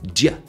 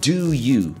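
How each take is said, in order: First: The words shrink to a single short sound. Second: Both words are said fully and separately. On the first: "it's just a sound, j" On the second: "do you becomes j"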